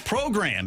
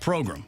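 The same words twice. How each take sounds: First: The second syllable sounds like 'gram' in grandma. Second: The second syllable does not sound like 'gram'. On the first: "as in grandma" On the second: "not program"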